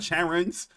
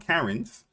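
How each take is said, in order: First: The name begins with an sh sound. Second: The name begins with a k sound. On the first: "Is that Cha or Cat?" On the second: "Is that Cha or Cat?"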